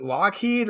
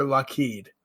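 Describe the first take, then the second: First: "Lockheed" with a full LOCK at the front; "Lockheed" pronounced LOCK-heed; first-syllable Lockheed. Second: "Lockheed" as luh-KEED; "Lockheed" pronounced luh-KEED; second-syllable Lockheed. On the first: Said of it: "before I mispronounce it again". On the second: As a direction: reduce the start of "Lockheed" and land on KEED. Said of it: "why I said Lockheed the first time". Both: Shown as a demonstration.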